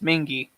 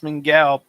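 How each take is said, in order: First: The name ends in an 'ee' sound. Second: The name ends in an 'ow' sound. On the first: This is how locals actually say the name. The speaker calls it right. "It's Mingy" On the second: This is how the name looks in writing. The speaker calls it wrong. "it looks like it says Mingao"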